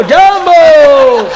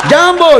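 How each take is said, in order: First: A very slow, high જાંબો, stretched out long and loud with a laugh; long drawn-out mock greeting. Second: A high, louder જાંબો, short and snapped with a laugh; high mock greeting. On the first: Guest from Africa greets the crowd: long stretched જાંબો. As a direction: drag જાંબો out as if singing it. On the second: Guest from Africa greets the crowd: short high જાંબો. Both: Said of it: "આફ્રિકાના આવેલા".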